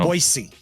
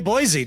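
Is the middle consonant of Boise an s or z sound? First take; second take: s; z. First: The middle consonant is an s sound. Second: The middle consonant is a z sound. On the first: The speaker calls it right. "Not a Z" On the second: The speaker calls it wrong. "don't say Boise"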